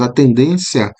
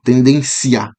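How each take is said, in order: First: The I is weak, gliding into one syllable. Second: The I is strong, making two separate syllables. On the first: The speaker calls it right. "o I ele é uma semivogal" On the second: The speaker calls it wrong. "a pronúncia forte aí do, do I"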